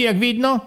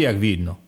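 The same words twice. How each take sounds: First: Jak widno asked with a sharp rise on widno; rising question. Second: Jak widno said low and falling, a calm statement; flat reply. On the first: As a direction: throw widno up as a pointed question. Rising question about light. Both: Acted.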